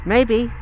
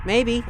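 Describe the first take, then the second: No difference in how they are said.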